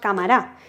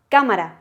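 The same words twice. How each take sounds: First: The stress is on the last syllable. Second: The stress is on the first syllable. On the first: The speaker calls it wrong. "ni decimos" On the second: The speaker calls it right. "el golpe de voz, ¿dónde lo vamos a dar? En K, porque decimos cámara"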